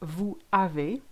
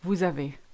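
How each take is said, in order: First: The two words are kept separate. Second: The two words are linked together. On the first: The speaker calls it wrong. "Instead of saying" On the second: The speaker calls it right. "we do tend to link words together"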